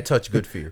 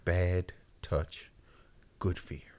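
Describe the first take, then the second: First: It is said at a normal pace. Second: It is said slowly.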